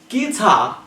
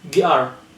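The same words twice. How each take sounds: First: The final R sound is dropped. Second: The final R sound is pronounced. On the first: The speaker calls it right. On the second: The speaker calls it wrong.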